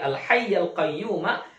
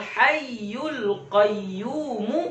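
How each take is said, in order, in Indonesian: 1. Kata-kata itu berakhir dengan vokal a. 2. Kata pertama berakhir dengan vokal u. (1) "baris atas ya" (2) "kalau sekiranya dibaca baris depan juga boleh ya"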